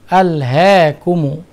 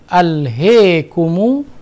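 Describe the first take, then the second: First: The vowel after h is between a and e. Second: The vowel after h leans strongly toward e. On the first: "taklil al-ha" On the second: "imalah al-ha"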